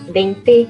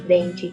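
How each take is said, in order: First: The final vowel is a clear 'e' sound. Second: The final vowel is reduced to an 'i' sound. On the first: This is the southern caipira subdialect pronunciation. "um E gráfico, sempre pronunciado como fônico" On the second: This is the common Brazilian Portuguese pronunciation. "e não ... como é comum no português do Brasil"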